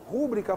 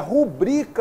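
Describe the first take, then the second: First: The stress is on the first syllable. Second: The stress is on the second syllable. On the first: The speaker calls it wrong. "A palavra rúbrica não existe" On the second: The speaker calls it right. "é rubrica o correto"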